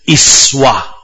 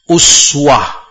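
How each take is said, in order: First: The first vowel is an i sound. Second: The first vowel is a u sound. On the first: "bisa kasrah" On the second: "Bisa dhammah"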